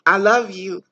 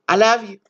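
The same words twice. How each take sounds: First: It is said earnestly, with deep feeling. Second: It is said offhand, with no real feeling.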